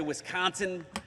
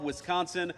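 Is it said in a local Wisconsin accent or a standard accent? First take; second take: local Wisconsin; standard. First: It is said in a local Wisconsin accent. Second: It is said in the speaker's standard accent.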